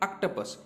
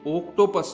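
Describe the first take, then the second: First: The first vowel is a short o sound. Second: The first vowel is a long o sound. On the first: The speaker calls it right. "इसको बोलेंगे हम short vowel" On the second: The speaker calls it wrong. "ये ओक्टोपस नहीं है"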